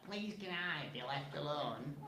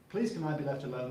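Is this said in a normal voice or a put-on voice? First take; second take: put-on; normal. First: It is said in an imitated, put-on voice. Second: It is said in the speaker's ordinary voice.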